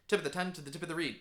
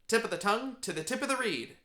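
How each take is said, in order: First: The phrase is said quickly. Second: The phrase is said at a normal pace. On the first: "try to say that five times fast" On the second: "Say that with me"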